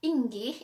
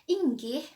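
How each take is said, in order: No difference in how they are said.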